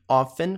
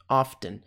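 First: The word is said without a T sound. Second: The word is said with a T sound.

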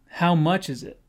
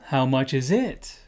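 First: The stress falls on 'how much'. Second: The stress falls later, not on 'how much'. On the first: The speaker calls it right. "the stress is on the first two words" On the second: The speaker calls it wrong. "We don't say, for example"

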